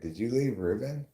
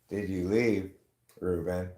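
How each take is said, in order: First: There is no pause before 'Ruben'. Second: There is a pause before 'Ruben'. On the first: The question asks whether Ruben was left. The speaker calls it wrong. "lack of comma" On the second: The question is addressed to Ruben. The speaker calls it right. "instead of saying"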